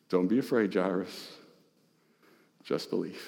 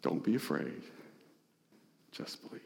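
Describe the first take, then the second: First: Soft, low and gentle comfort; tender reassurance. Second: Almost whispered, tender comfort; whispered reassurance. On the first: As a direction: reassure a frightened father quietly. Jesus comforts Jairus. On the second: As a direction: breathe it to him like a secret promise. Jesus repeats the comfort. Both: Acted.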